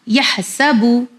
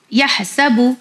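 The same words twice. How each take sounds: The two takes are said the same way.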